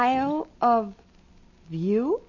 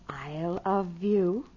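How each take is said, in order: First: It is said slowly, as separate words. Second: It is said fast, run together.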